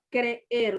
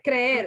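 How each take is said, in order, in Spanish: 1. Una pequeña pausa separa las dos vocales. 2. Las dos vocales suenan juntas, en un solo golpe. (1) "Usted hace una pequeña pausa para pronunciar una vocal y, y la otra vocal" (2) "Usted no dice creer"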